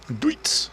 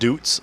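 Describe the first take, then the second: First: The vowel sounds like 'oy' in boy. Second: The vowel sounds like 'oo' in boot. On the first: The speaker calls it right. "it's actually Deutz. And that makes sense because Deutschland is Deutsch" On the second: The speaker calls it wrong. "I've always been calling it Doots"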